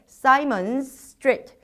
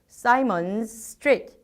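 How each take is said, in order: First: The two words run together with one long s. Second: The two words run together with one long s.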